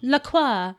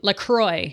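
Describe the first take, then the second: First: The name is said in a fancy style. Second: The name is said in an American style. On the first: "you can say it kind of fancy" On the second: "That's the US pronunciation"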